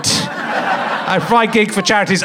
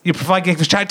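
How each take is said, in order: First: Slow mocking echo; mock self-importance. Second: Said in the usual way. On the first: Comic teasing audience member's good deeds, mock pride. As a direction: parrot it back as a mild boast. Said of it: "Don't make it look like you're good".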